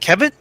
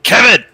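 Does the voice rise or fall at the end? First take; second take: rise; fall. First: It is soft and rises like a question. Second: It is a firm statement that falls.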